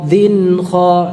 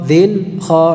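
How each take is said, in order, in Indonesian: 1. Suku katanya menyambung tanpa jeda sama sekali. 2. Ada jeda singkat di antara suku katanya. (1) "langsung. Jadi tidak ada jeda" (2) "dzin kha enggak"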